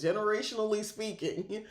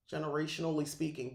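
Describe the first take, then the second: First: Generationally said higher and louder with a rising end; emphatic restart. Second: Quick, stumbling pass at the phrase; rushed restart. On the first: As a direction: reset and land Generationally firmly this time. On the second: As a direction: hurry through it while still fumbling. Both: Real, not acted. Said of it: "geez, I'm all over the place".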